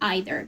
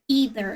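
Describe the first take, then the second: First: It is said with a British pronunciation. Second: It is said with an American pronunciation. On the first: "I learned uh, British English pronunciation at school. So that means that I pronounce it either" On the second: "either is the American pronunciation"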